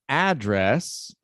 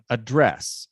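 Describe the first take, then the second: First: The stress is on the first syllable. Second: The stress is on the second syllable. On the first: "So a is the stressed syllable" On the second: "they both are nouns"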